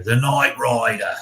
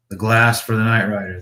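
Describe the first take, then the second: First: Slow, drawn-out mock Australian accent; bad Australian accent; terrible Australian accent. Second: Said in the usual way. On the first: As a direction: put on a hammy Aussie accent, stretching the vowels. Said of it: "Australian accent".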